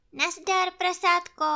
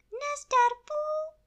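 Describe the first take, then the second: First: High, cheery hello; friendly bear greeting. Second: Very high, small piglet voice; tiny piglet. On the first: Pú grüßt Ferkel. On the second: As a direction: squeak it like a little pig. Ferkel grüßt zurück. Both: Acted.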